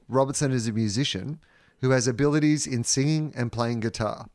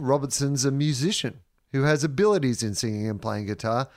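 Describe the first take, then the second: First: It is read in a plain, neutral tone. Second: It is read in a passive-aggressive tone.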